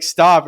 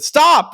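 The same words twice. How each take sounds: First: Said in the usual way. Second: Very high mock yell; imitated scream. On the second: Ned at the teasing kids, high imitated scream. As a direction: yelp it out as a protest. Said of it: "he, like, screamed at us".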